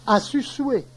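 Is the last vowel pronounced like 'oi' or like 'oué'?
oué. It ends in 'oué' with no final R. This is the local dialect form.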